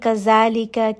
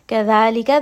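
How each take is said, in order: First: The middle consonant is a buzzing z sound. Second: The middle consonant is a soft th sound. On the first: The speaker calls it wrong. "we are not saying gazalika" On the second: The speaker calls it right. "the tongue should be between the teeth"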